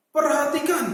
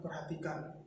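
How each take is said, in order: First: "Perhatikan" loud and pressed, as a command; strongly stressed "Perhatikan"; with emphasis. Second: "perhatikan" very soft and low, no stress; weak, unemphatic "perhatikan"; without emphasis. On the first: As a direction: punch out "Perhatikan" firmly. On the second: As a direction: let "perhatikan" drop, unpressed and quiet. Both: Shown as a demonstration. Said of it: "Bukan perhatikan".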